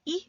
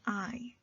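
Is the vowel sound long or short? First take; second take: short; long. First: The vowel is short, as in 'it'. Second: The vowel is long, like the letter name. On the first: "Instead of saying I" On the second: "change the sound to the name of the vowel"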